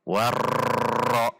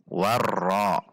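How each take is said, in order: First: The doubled r is drawn out long. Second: The doubled r is balanced, neither long nor abrupt. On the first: The speaker calls it wrong. "tidak boleh memanjangkannya. Contoh warra" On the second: The speaker calls it right. "Namun di antara keduanya dengan menjaga takrir huruf ra"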